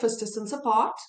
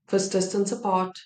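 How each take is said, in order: First: It is said with lively, varied energy. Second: It is said flatly, in one dull tone. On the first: The speaker calls it right. "now let's add some of that pizzazz and flavor to it" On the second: The speaker calls it wrong. "without any emotion. Just dull, boring, same tone of voice"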